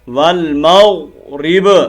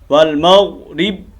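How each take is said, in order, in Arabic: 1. تنتهي الباء الأخيرة بارتداد صدوي واضح. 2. تنتهي الباء الأخيرة مسطحة دون ارتداد. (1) "बा को हिलाना है" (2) "ये गलत है"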